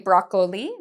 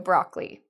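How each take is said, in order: First: The middle O is pronounced as a syllable. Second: The middle O is silent, leaving two syllables. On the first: The speaker calls it wrong. "They say broccoli" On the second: The speaker calls it right. "The O here, it's quiet. It's a silent O"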